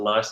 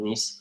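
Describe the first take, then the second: First: The vowel sounds like 'eye'. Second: The vowel sounds like 'ee'. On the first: The speaker calls it wrong. "It's not nice" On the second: The speaker calls it right. "It's called niece"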